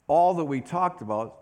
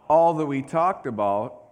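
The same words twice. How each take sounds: The two takes are said the same way.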